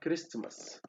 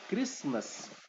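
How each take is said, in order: First: The t sound in the middle is pronounced. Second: The t sound in the middle is dropped. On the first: It takes more effort to say. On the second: It takes less effort to say.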